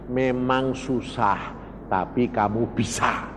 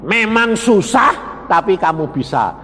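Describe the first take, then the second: First: Voicing God. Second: Repeating for emphasis. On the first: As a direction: say it gently, like a quiet assurance. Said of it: "Tuhan ngomong lagi". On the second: Shown as a demonstration. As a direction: hammer it home to the room. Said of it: "Nah, weh".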